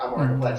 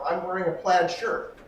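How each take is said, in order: First: It sounds flat and mechanical, like a robot. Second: It sounds engaged, like confirming what was heard.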